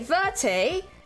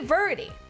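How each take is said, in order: First: The name is said with a British accent. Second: The name is said without a British accent. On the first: "British jump scare" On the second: "I say Verdi"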